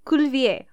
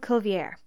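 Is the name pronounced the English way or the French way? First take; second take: French; English. First: The name is pronounced with French sounds. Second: The name is pronounced with English sounds. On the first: This is how the man himself said it. "Cuvier would be how he said in French" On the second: This is how scientists say it in English. "In English and science, we call him Cuvier"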